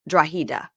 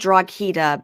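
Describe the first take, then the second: First: No G sound is heard mid-word. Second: A hard G sound is heard mid-word. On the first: The speaker calls it right. "but it's" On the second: The speaker calls it wrong. "it looks like"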